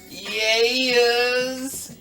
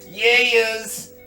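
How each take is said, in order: First: The word is drawn out and long. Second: The word is said quickly and short.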